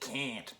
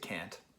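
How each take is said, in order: First: The word is said in a Rochester accent. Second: The word is said in a general American accent. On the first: "Rochester, where I am, they'd say can't" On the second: "in America we'd say can't"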